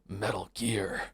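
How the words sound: It is said in a Snake impression.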